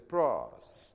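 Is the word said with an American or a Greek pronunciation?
American. It is said with an American pronunciation. "But Americans would say"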